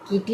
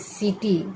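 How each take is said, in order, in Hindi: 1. यह शब्द 'k' ध्वनि से शुरू होता है। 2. यह शब्द 's' ध्वनि से शुरू होता है। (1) "कीटी नहीं होगा"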